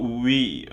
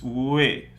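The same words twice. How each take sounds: First: We like the English pronoun, long ee; close, spread ee in we; wrong ee vowel. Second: We opened towards "way", not ee; vowel as in question. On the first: Teacher showing what it's not, we with ee. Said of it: "so it's not we". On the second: Teacher showing the tricky I, we as in question. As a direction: glide from w into a half-open e in we. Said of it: "in the word question". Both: Shown as a demonstration.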